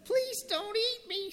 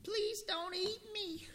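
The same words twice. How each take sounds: First: Very high, tiny squeak; squeaky mouse. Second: Squeaky mouse voice. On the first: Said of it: "squeaked the little brown mouse". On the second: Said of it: "squeaked the". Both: Acted.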